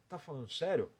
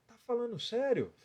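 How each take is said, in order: First: It is said at a lower pitch. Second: It is said at a higher pitch.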